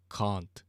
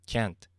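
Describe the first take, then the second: First: "can't" with a long British "ah" vowel; British pronunciation. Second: "Can't" with a flat American "a" as in cat; American pronunciation. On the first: Giving a good example of accent difference, British "can't". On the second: Comparing accents for listeners, American "Can't". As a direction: say "Can't" the American way, short front "æ" vowel. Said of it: "That was an American can right there". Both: Shown as a demonstration.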